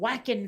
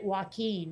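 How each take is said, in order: First: The name sounds like the word whacking. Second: The name sounds like wah-keen. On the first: The speaker calls it wrong. "they could not pronounce Joaquin Phoenix accurately. They kept calling him Whackin' Phoenix" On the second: The speaker calls it right. "which is how it's supposed to be pronounced"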